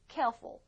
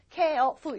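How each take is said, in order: First: The word is said smoothly in two beats. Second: The word is split into three separate beats. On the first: The speaker calls it right. "두 박자예요" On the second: The speaker calls it wrong. "careful 이러진 않거든요"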